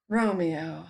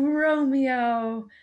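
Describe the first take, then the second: First: The name sounds dismayed, like a sudden realization. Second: The name sounds warm and adoring. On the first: She realizes there is a problem. "the second one was like, ah, shoot" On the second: She thinks he is wonderful. "the first one was like, oh gosh, you're so great"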